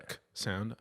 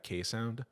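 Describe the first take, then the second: First: "K" as a bare hard consonant; "K" clicked out as a phoneme; letter as its sound. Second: Said in the usual way. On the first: Shown as a demonstration. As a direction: say "K" as the kuh sound, not the letter name. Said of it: "making that K sound". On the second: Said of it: "or the K sound".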